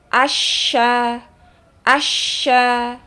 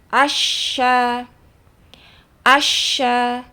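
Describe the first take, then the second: No difference in how they are said.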